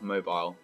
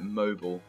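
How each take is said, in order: First: It is said with a British pronunciation. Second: It is said with a non-British pronunciation. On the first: The speaker calls it right. "It should be mobile" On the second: The speaker calls it wrong. "you start saying, like, mobile instead of mobile"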